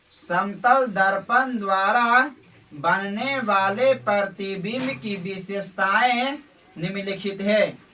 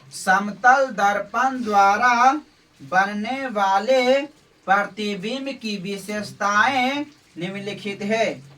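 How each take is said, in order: No difference in how they are said.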